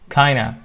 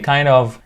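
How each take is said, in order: First: 'Kind of' is blended into one word 'kinda'. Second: 'Kind of' is said fully as two words.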